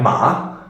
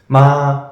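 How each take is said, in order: First: The pitch dips, then swings back up. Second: The pitch stays level throughout. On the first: "similar to the falling one, but not really, because one there's also a swing back up a bit" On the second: "it's a flat tone. It's the neutral tone"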